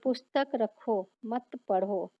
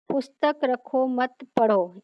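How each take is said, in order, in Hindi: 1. 'rakho' शब्द के बाद विराम है। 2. 'mat' शब्द के बाद विराम है। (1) "पुस्तक को रख दो, तुम उसे मत पढ़ो" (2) "मत के बाद अल्प विराम रखा है"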